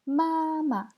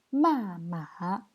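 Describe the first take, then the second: First: "Mama" high and level, then a short light syllable; tone contrast. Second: "Mama" falling sharply, then dipping and rising; tone contrast. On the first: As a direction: hold the first "Ma" high, drop the second lightly. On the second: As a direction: drop the first "Ma", dip and lift the second. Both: Shown as a demonstration. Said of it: "le ton est super important".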